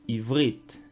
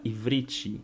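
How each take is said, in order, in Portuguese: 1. O v e o r são unidos sem vogal. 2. Uma vogal i extra é inserida entre o v e o r. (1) "o próprio nome da língua" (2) "muitas pessoas vão pronunciar ... tem esse acréscimo do i"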